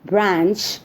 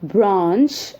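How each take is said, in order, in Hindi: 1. यह अमेरिकी लहजे में कहा गया है। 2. यह ब्रिटिश लहजे में कहा गया है। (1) "in the U S" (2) "in the U K"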